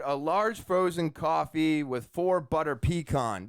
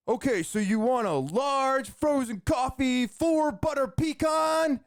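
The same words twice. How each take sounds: First: Said in the usual way. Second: High-pitched, over-excited drive-thru yell, stretching the last words; imitated energetic yelling. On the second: Drive-thru worker repeating the order over the speaker, yelling like crazy. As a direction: belt the order back like a hyped-up announcer. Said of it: "He's yelling like crazy".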